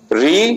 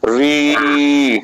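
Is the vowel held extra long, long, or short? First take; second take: short; extra long. First: The vowel is short and quick. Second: The vowel is held about three times as long. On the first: "उस पहले की अपेक्षा" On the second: "इसमें तीन गुना time दिया जाएगा"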